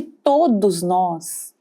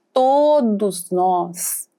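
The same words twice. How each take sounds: First: "todos" drawn out slowly; emphatic TODOS. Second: "todos" stretched very long and slow; heavy stress on TODOS. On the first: Speaker concluding to the audience, slow stress on "todos". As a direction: stretch "todos" with measured weight. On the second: Speaker insisting everyone has felt envy, long heavy stress on "todos". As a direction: hold "todos" long, then let "nós" land. Repeats it with greater emphasis. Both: Real, not acted.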